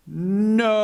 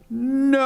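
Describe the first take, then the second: First: Loud, higher flat refusal: "No."; anteater's blunt no. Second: Much higher, loud refusal: "No."; anteater's louder no. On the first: The anteater refusing the bartender's beer, loud and high. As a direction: bark a sudden "No." up high. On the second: The anteater rejecting the bartender's wine, loud high shout. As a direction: shoot "No." up even higher and loud. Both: Acted.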